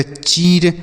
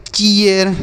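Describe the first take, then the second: First: चीर as one syllable, long ee straight into r; mistaken long-ee reading. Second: चीयर in two beats, chee-yar; correct ee-a glide. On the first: Teacher showing pupils how not to read it, long-ee चीर. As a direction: say चीर with no glide before the r. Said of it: "ऐसे पढ़ेंगे नहीं". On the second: Teacher modelling the double-e-r rule for pupils, gliding chee-yar चीयर. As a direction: open the ee of चीयर into a short a before r. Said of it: "इसे हम पढ़ेंगे". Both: Shown as a demonstration.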